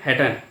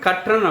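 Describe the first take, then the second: First: The word begins with an h sound. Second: The word begins with a k sound. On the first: "எந்த ஊர் ஹெட்டன் ஹெட்டன்கிறத" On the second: "அவர் சொல்லுவார் கற்றன் அப்படிம்பாரு"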